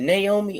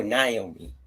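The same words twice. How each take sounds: First: Naomi said as NAY-oh-mee; first-syllable NAY. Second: Naomi said as NIGH-oh-mee; first-syllable NIGH. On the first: Asking co-hosts the wrestler's name, Naomi as NAY-oh-mee. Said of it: "Is it Naomi or Naomi?". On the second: Offering co-hosts the other option, Naomi as NIGH-oh-mee. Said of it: "what's the lady's name?". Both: Shown as a demonstration.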